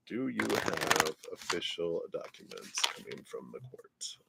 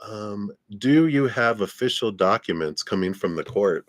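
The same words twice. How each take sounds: First: Softer muttered reread. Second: Said in the usual way. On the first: Real, not acted. Rereads question softly to herself.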